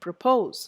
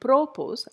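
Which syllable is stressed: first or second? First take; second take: second; first. First: The stress is on the second syllable. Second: The stress is on the first syllable. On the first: The speaker calls it right. "verbs normally take the stress on the second syllable" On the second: The speaker calls it wrong. "I don't say propose"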